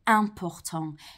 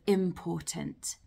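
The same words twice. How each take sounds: First: The first vowel is a French nasal vowel. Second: The first vowel is an oral English vowel. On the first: "You also hear this sound with an IM in French as well" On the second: "instead of"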